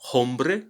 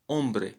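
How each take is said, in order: First: The initial H sound is pronounced. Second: The initial H sound is silent. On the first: The speaker calls it wrong. "we don't say hombre" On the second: The speaker calls it right. "but we say hombre"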